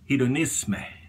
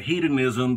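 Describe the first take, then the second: First: The word has a French pronunciation. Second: The word has an English pronunciation. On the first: "the actual pronunciation ... that is French" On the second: "some of you may pronounce it"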